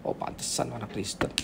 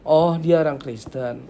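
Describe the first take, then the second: First: Much softer, low, dismissive remark; knowing disapproval. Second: Slow, impressed discovery; approving recognition. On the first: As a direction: drop to a low, disparaging aside. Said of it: "Sama nadanya gini". (gumaman rendah yang menyindir) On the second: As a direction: draw it out as a favourable realisation. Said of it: "Beda ya, nadanya beda ya". (kagum, baru menyadari) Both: Shown as a demonstration.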